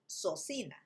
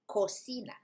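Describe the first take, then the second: First: Both C sounds are soft, like S. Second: Only the first C sounds like K. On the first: The speaker calls it wrong. "not socina" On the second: The speaker calls it right. "co, hard sound, but you have si, soft sound"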